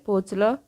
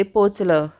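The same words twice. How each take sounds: First: Rising question tune on पोचलं; quiet, questioning पोचलं with a lift; asking question. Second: पोचलं with a falling, settled tune; calm confirming पोचलं, falling at the end; answering. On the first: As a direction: ask पोचलं with the pitch going up at the end. Narrator voices question, then answer. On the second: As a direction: answer पोचलं flatly, letting it drop. Narrator voices answer to question. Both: A narrator's reading.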